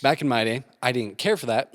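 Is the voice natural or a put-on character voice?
natural. It is spoken in a natural everyday voice. "just say it normal"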